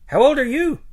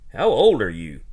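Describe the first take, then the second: First: It is said in a mocking put-on voice. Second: It is said in a normal voice.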